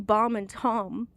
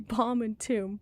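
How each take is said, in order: First: Both words have the same vowel and rhyme. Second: The two words have different vowels. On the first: Words spelled alike are pronounced alike. The speaker calls it right. "it should be bomb and tom" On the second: Words spelled alike are pronounced differently. The speaker calls it wrong. "It should not be bomb and tomb"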